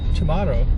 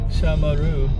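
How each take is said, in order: First: The ending does not rhyme with kangaroo. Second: The ending rhymes with kangaroo. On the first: The speaker calls it wrong. "I always pronounce it uh" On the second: The speaker calls it right. "It's actually Shamaru. Kangaroo, Shamaru"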